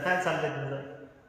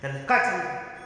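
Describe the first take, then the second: First: It sounds casual and relaxed. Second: It sounds accusing, catching a thief.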